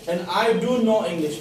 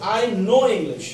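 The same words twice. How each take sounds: First: "do" pressed hard, slow and deliberate; stress on do. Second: Said in the usual way. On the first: Shown as a demonstration. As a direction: lean on "do" to insist. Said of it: "मतलब हम जोर से बोल रहे हैं". ("do" पर ज़ोर देकर, धीरे बोलें) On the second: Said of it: "दोनों में फर्क पड़ जाता है".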